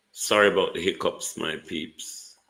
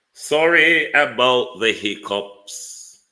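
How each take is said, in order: First: Said in the usual way. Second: Slow and loud, stretching it out; loud drawn-out apology. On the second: Real, not acted. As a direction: drag out the apology loudly.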